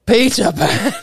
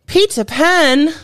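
First: Lighter second go at a mock British "Peter Pan"; bad Disney English accent. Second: High, slow mock British "Peter Pan"; bad Disney English accent. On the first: Host retries the clue in a mild Disney English accent. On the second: Host teasing the theme in a bad Disney English accent. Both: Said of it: "my really bad, uh, Disney English accents".

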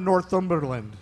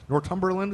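First: Northumberland said with "th", "nor-THUM-ber-land"; soft-th pronunciation. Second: Northumberland said with a hard t, "nor-TUM-ber-land"; tentative alternative pronunciation. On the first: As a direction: keep the th sound in Northumberland. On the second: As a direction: try Northumberland with "t" for "th". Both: Shown as a demonstration. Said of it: "is that how you say it?".

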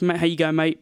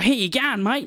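First: Understated English "mate"; English accent. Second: Higher, emphatic Australian greeting; Australian accent. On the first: Comparing greetings by country, understated English accent. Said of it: "in England, it's like". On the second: Comparing greetings by country, emphatic Australian accent. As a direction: punch "mate" in an Australian accent. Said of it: "But in Australia, it's like". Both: Shown as a demonstration.

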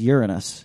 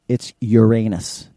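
First: "Uranus" stressed on the first syllable, YUR-uh-nus; kid's pronunciation. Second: Slow "Uranus" as your-AY-nus; proper way. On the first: Dad quoting his kid, new pronunciation. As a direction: say "Uranus" as YOOR-un-us. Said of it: "he says Uranus". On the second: Dad correcting his kid, old pronunciation. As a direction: correct firmly, stressing the middle of "Uranus". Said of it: "teaching them the proper way to say it". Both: Retold or imitated.

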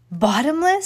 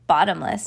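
First: BOTTOMLESS pitched high and rising, a loud question. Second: BOTTOMLESS set low as a firm statement; confirming. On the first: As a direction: ask BOTTOMLESS loudly with the pitch going up. Mrs Watson questions, husband confirms. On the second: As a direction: answer BOTTOMLESS low, with no question in it. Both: A narrator's reading.

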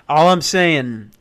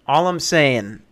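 The two takes are said the same way.

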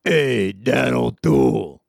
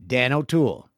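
First: Slow, louder drawn-out sinister greeting; evil voice. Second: Evil voice. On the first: Retold or imitated. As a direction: say it slow and menacing. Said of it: "someone who goes". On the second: Acted. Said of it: "in an evil voice".

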